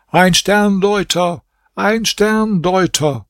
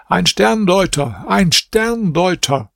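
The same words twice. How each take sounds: First: Hoch und langsam gedehnt gerufen; erneuter lauter Ausruf. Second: Hoch und langsam gedehnt ausgerufen; lauter Ausruf. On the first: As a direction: ruf es beharrlich zum dritten Mal. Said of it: "rief zum dritten Mal". (Prinz ruft beharrlich vor dem Palast aus) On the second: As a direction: ruf es über den Palastplatz. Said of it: "rief hier mit lauter Stimme". (Prinz ruft vor dem Palast laut aus) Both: A narrator's reading.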